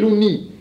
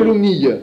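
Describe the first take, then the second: First: The word ends in a plain ee sound. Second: The word ends in an ee-yuh sound. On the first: This is the form used locally. "Ici, on dit l'ouni" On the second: Some other people use this form. "Il y en a qui disent l'ounille"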